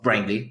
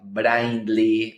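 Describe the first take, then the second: First: It is said with an American English accent. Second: It is said with an Argentine Spanish accent.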